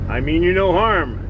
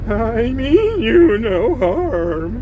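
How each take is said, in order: First: The voice is steady and plain. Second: The voice trembles and shakes. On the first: The speaker calls it wrong. "Oh, sorry" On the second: The speaker calls it right. "you announce in a trembling voice"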